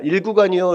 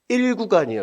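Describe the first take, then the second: First: It has the flat Jeolla dialect intonation. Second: The pitch is raised in the Seoul intonation. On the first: Seoul listeners could not understand it. The speaker calls it wrong. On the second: Seoul listeners could understand it. The speaker calls it right.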